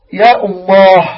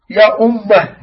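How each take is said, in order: First: "أمه" loud with the final vowel held long; drawn-out call. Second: "أمه" with the mim doubled and held. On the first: Teacher reading the boy's words to his mother, "أمه" drawn out. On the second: Teacher showing students the word "أمه", with a doubled mim. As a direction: press on the m in "أمه", saying umm-mah. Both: Shown as a demonstration. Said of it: "بشد، بشد ال".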